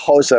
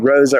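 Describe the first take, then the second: First: It is said with a Brazilian Portuguese pronunciation. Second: It is said with an English pronunciation.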